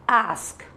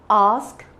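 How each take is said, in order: First: It is said in an American accent. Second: It is said in a British accent. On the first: "ask American" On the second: "ask British"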